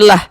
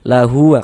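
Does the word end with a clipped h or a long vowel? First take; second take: clipped h; long vowel. First: It ends on a clipped h with no vowel. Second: It ends on a drawn-out u vowel. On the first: The reader stops at this word. "huruf h kita matikan" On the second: The reader continues into the next word. "kalau kita wasolkan dibaca panjang"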